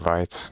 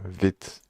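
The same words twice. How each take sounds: First: It is said with an English-style vowel. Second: It is said with the French vowel. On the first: The speaker calls it wrong. "I keep saying vite" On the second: The speaker calls it right. "you should say it like uh, vite"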